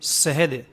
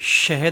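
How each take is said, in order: First: The word begins with a thin 's' hiss. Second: The word begins with a broad 'sh' hiss. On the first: The speaker calls it wrong. "बोलते हैं" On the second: The speaker calls it right. "शहद होता है। तो बड़ी शीन निकालनी है"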